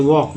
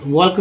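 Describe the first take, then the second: First: "वॉक" with the L silent; correct pronunciation. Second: "वॉक" with the L sounded, as "वॉल्क"; wrong pronunciation. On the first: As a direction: say "वॉक" with no L before the K. ("वॉक" में ल silent) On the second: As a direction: pronounce the silent L in "वॉक". ("वॉक" में ल बोलकर, "वॉल्क") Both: Shown as a demonstration. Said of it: "वॉक नहीं पढ़ेंगे".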